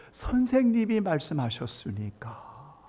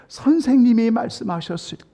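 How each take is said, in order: First: Said in the usual way. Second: 선생님이 said louder and higher; preacher's loud echo, 선생님이 stressed; emphatic repeat. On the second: Shown as a demonstration. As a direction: press the point on 선생님이.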